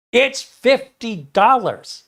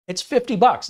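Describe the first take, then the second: First: High, loud and slow, spelling it out; hammed-up fed-up seller, higher, louder and slow; more exasperated. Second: Much higher, louder, fed-up answer; retold exasperation, pitched up high and loud; exasperated seller. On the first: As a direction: drag it out slowly like talking to someone dense. Seller repeating price, more exasperated. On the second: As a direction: snap it back like you've answered this already. Seller exasperated by buyer questions.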